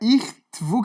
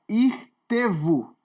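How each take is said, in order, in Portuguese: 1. O t e o v ficam juntos, sem vogal. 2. Um som de e curto separa o t e o v. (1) "que era irtvu, que eu li" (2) "o correto é irtevu"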